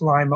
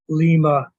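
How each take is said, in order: First: The first vowel sounds like 'eye'. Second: The first vowel sounds like 'ee'. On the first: It follows the English reading of the letter. "Lima, Ohio" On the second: It follows the Latin-style reading of the letter. "the I would be an E"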